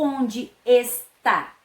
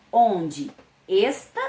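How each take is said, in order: First: "está" slowly, stressed on final "tá", falling; stress on last syllable. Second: "esta" slowly, stressed on "es", rising; stress on first syllable. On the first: Teacher offers pupils second option, stress on last syllable. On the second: Teacher offers pupils first option, stress on first syllable. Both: Shown as a demonstration. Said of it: "observando aí o acento".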